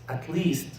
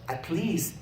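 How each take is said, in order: Both takes have the same delivery.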